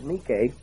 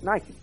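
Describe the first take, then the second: First: It is pronounced the way Greek says it. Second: It is pronounced the way English speakers say it. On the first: This is the original word meaning overcome. "in the Greek language is Nike" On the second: This is how the word is used today. "We pronounce it Nike"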